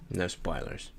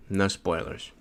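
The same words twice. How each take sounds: First: Dropped to a near whisper, far softer; hushed. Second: Said in the usual way. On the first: Shown as a demonstration. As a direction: say it again under your breath.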